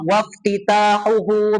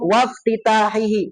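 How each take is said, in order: First: The closing vowels are u sounds. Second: The closing vowels are i sounds. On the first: The phrase starts a new statement. "Ketika dibaca dhammah" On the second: The phrase continues the previous list of signs. "kalau antum baca kasrah"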